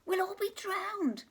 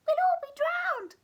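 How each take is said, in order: First: Higher squeaky mouse cry; squeaking mouse. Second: Much higher, louder panicked squeak; squeaking mouse. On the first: Mouse squeaking panic to the others. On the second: Mouse squealing in panic at the flood. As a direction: squeal like a tiny frightened mouse. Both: Acted. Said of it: "squeaked the mouse".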